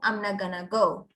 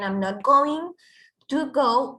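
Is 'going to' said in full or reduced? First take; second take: reduced; full. First: Going to is reduced to a single word, gonna. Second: Going to is said as two full words. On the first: "es informal y coloquialmente" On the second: "instead of saying"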